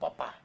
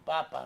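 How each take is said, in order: First: The stress is on the last syllable. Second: The stress is on the first syllable. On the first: Dad. "faltó la tilde" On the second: The Pope. "el acento de papá, no, de papa"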